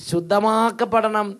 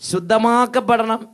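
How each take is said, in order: The two takes are said the same way.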